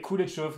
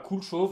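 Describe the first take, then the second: First: It is said with a middle syllable, cool-é-chauve. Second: It is said as two syllables, cool chauve. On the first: The speaker calls it right. "mais cool et chauve" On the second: The speaker calls it wrong. "ça se prononce pas cool chauve"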